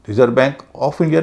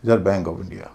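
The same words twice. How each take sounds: First: "of" said as "ov", slow and stressed; teacher models "of" as "ov", slowly; correct way. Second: "of" said softly as "ov", lower; correct repeat. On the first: Teacher shows students the right "of", slow and careful. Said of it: "नहीं". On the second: Teacher repeats the model pronunciation softly. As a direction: repeat it gently with "ov". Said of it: "Reserve Bank of India नहीं". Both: Shown as a demonstration.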